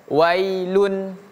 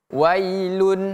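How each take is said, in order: Both takes have the same delivery.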